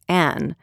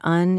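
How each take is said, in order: First: The vowel sounds like 'a'. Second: The vowel sounds like 'uh'. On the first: The speaker calls it right. "trying to turn un into an" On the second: The speaker calls it wrong. "I always say un, like in an hour, and that must not be the standard pronunciation"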